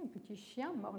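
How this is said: A prosodic boundary comes before the last word. The last word is a verb: the dog bites. "il y a une frontière d'intonation juste devant mort"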